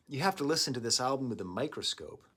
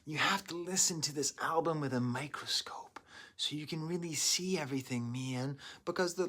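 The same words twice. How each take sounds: First: Stoner voice. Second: Unvoiced whispered redo. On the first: Real, not acted. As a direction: say it like a laid-back stoner. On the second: Shown as a demonstration. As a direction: breathe it out in a whisper. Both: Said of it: "I sound like a stoner".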